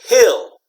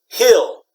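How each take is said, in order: Both takes have the same delivery.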